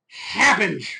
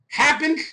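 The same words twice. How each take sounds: First: "happens" low with a falling end; "happens" echoed low, sinking to a close. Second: "happens" high with a rising end; "happens" pitched up like an open question. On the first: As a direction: drop "happens" down with finality. Repeats word in contrasting low tune. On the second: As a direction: leave "happens" hanging up in the air. Word repeated in contrasting tune. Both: Acted.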